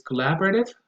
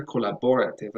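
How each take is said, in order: First: Collaborative with LAB stressed; stress on second syllable. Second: Collaborative with BOR stressed; common mistaken stress. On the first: Introducing the second word safely, collaborative stressed on LAB. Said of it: "but probably never". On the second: Warning learners what never to say, collaborative stressed on BOR. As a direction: wrongly lean on BOR in collaborative. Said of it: "as I hear a lot". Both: Shown as a demonstration.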